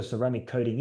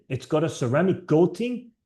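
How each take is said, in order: First: Said in the usual way. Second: Mock German accent on "coating". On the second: Repeating the German dealer's ceramic coating pitch, light German accent. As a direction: lightly imitate a German salesman. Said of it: "He said it in his German accent".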